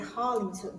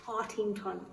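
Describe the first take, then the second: First: The middle sound is an L. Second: The middle sound is a T. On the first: The speaker calls it wrong. "I keep wanting to say Harlington, but it's not" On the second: The speaker calls it right. "It's Hartington"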